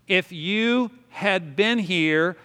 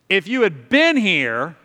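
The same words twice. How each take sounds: First: It is said in a plain, neutral tone. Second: It is said with a resentful, accusing tone.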